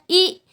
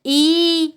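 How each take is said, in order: First: ई said briefly, not held; short ई. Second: ई held out on a level note; long ई. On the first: Teacher listing unrounded vowels, the short ई. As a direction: give a quick, short ई. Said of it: "छोटी, बड़ी". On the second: Teacher listing unrounded vowels, the long ई. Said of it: "बड़ी, ए और आई". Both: Shown as a demonstration.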